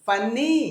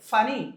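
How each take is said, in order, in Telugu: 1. మధ్య n శబ్దం పొడవుగా, రెండుసార్లు ఉంటుంది. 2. మధ్య n శబ్దం పొట్టిగా, ఒక్కటే ఉంటుంది. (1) "ఫన్నీ కాదు" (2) "రెండు కాన్సోనెంట్స్ పక్క పక్కన వస్తే ఒక్కటే పలకాలి"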